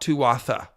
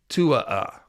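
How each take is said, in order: First: A clear 'th' sound is pronounced in the middle. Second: No 'th' sound is pronounced in the middle. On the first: The speaker calls it wrong. "it is not Tuatha. You do not say the th sound" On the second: The speaker calls it right. "It appears to be tua"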